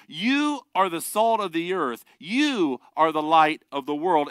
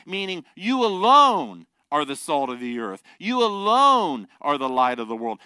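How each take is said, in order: First: Said in the usual way. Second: Alone leaned on, louder; stress on alone. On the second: Shown as a demonstration. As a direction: hit alone hard, you alone. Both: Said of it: "the tense there is emphatic".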